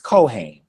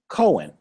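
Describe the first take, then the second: First: The word is said slowly and carefully. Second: The word is said quickly and rushed. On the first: This is the word for the priest. The speaker calls it right. "But the proper pronunciation is Kohen" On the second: The speaker calls it wrong. "You may hear some people rush it and say Cohen"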